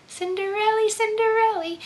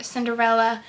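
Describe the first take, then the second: First: Much higher, sing-song Cinderella; high dreamy Cinderella; lilting fairy tale voice. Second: Said in the usual way. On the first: Shown as a demonstration. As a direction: float the name like a storybook princess. Repeating the fairy tale name.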